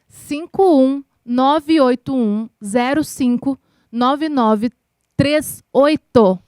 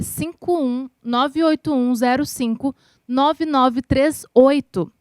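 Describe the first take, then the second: First: The number is read at a slower pace. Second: The number is read at a faster pace.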